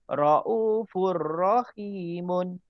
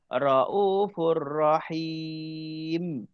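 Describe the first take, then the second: First: It continues with an added ending, unrestricted. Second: It stops on the final m with no ending. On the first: The reciter continues without pausing. "kalau kita sambung je tu" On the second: The reciter pauses at the end of the verse. "kalau kita berhentikan"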